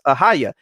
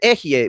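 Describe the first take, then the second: First: The word is said as 'Ahaya'. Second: The word is said as 'Ehye'. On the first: The speaker calls it wrong. "which they mispronounce Ahaya" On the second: The speaker calls it right. "the Ehye"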